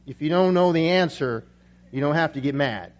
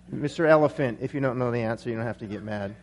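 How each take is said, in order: First: Said in the usual way. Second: Trailing off low and very soft; dropping out. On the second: Acted. Dazed lion answering the elephant, voice dropping out. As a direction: let the punchline sink away almost to nothing. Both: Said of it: "kinda dropped out there".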